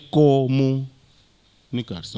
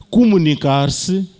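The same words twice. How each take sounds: First: "comunicar-se" very slow, with the lowered Mozambican vowels; Mozambican pronunciation. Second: "Comunicar-se" slowly, stretched, louder, rising at the end; European pronunciation. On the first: ("comunicar-se" à moçambicana, com vogais abaixadas) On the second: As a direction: model the European "Comunicar-se" syllable by syllable. ("Comunicar-se" à europeia, devagar) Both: Shown as a demonstration. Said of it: "aqui é comunicar-se".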